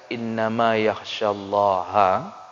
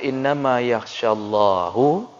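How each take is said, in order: First: The word ends with an 'a' vowel. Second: The word ends with a 'u' vowel. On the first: Scholars are the ones who fear God. The speaker calls it right. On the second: God fears the scholars. The speaker calls it wrong.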